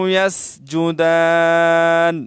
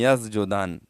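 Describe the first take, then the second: First: The s and j sounds are clearly separated. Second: The s and j sounds run together. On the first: The speaker calls it right. "सीन अलहदा कलमा हर्फ है और जिम अलहदा हर्फ है" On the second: The speaker calls it wrong. "तो इस तरह भी गलत है"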